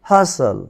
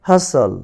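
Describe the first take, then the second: No difference in how they are said.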